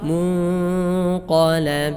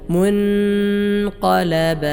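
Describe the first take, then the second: First: The n is hidden in a nasal hum. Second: The n is pronounced clearly and fully. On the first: The speaker calls it right. "ഇഖ്ഫാ ചെയ്യണം" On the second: The speaker calls it wrong. "ഇവിടെ ചിലർ ഓതും"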